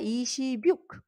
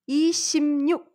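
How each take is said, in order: First: The middle consonant is a plain b sound. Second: The middle consonant becomes an m sound. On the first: The speaker calls it wrong. "Cela ne sera pas" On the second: The speaker calls it right. "la lettre B plus N, ça devient M"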